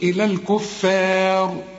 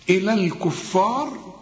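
First: The f sound is light and thin. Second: The f sound is heavy and emphatic. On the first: The speaker calls it right. "الفاء والمد كمان بتاعها مرقق" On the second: The speaker calls it wrong. "خطأ"

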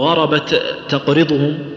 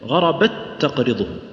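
First: The two t sounds are pronounced separately. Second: The two t sounds merge into one doubled t. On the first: The speaker calls it wrong. "ما نقول" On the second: The speaker calls it right. "ندغمها إدغام كامل"

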